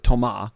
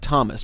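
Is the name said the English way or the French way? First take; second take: French; English. First: The name is said the French way. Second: The name is said as English reads it. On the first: The speaker calls it right. "but you pronounce it Thomas" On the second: The speaker calls it wrong. "it's spelled like Thomas"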